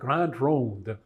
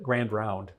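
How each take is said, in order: First: The name is said with French-style vowels. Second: The name is said like English 'grand round'. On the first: This is how the written name suggests it is said. "It looks like it's it's called" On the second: This is how local people actually say it. "everybody called it"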